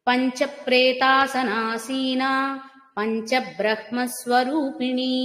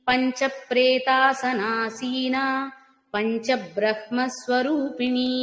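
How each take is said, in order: Both takes have the same delivery.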